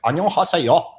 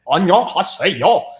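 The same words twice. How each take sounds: First: It is said in a plain, normal way. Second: It is said with a heavily exaggerated accent.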